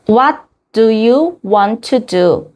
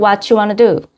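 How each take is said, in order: First: Each word is said separately and fully. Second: The words run together almost like one word. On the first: "이렇게 여섯 단어인데" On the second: "실제로는 ... 이렇게 읽을 수 있어요. 한 단어죠, 거의"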